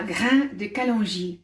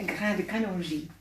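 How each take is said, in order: First: "grain de kalonji" said slowly in careful French; French pronunciation. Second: Said in the usual way. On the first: Shown as a demonstration. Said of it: "I'm going to give you the French name". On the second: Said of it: "if you're speaking French".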